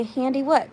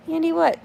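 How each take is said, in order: First: Said in the usual way. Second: Higher, puzzled "Handy what?"; confused repeat. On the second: Real, not acted. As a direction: asks "Handy what?" again, baffled. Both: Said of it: "repeats, confused".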